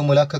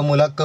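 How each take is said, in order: The two takes are said the same way.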